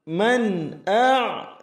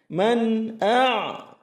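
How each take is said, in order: Both takes have the same delivery.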